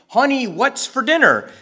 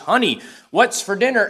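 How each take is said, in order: First: It is said almost as a shout. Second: It is said in a rather loud voice. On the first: "practically shouted" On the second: "asked in a rather loud voice"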